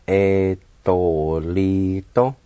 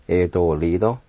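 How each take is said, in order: First: "E, to, li, to" drawn out but joined; E as "eh", gliding slowly through to, li, to; slow pronunciation. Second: Said in the usual way. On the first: Shown as a demonstration. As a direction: slowly link the syllables E, to, li, to. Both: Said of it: "now I'll pronounce these words".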